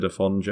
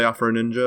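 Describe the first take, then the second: First: AFONJE as one name, no R; Afonje without R. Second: AFRO NINJA with the R sounded in AFRO. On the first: Reporting what casters mostly said, AFONJE without the R. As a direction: run AFONJE together with no R. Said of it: "mostly they said Afonje". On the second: Reporting what casters called the player, AFRO NINJA with the R. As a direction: say AFRO NINJA as two English words, R included. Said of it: "they split between". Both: Retold or imitated.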